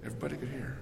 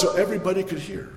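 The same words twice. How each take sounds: First: Much softer, almost to a whisper; hushed echo. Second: Said in the usual way. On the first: Shown as a demonstration. Preacher echoes his point to the congregation, hushed. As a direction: let the repeat fall to a hush. Repeats line then drops voice.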